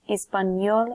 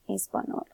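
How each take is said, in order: First: The last syllable starts with a 'ny' sound. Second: The last syllable starts with a plain 'n' sound. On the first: The speaker calls it right. "we're pronouncing this as español" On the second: The speaker calls it wrong. "and not español"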